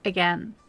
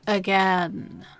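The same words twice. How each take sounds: First: The word is said plainly, without extra emphasis. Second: The word is said with strong, heavy emphasis.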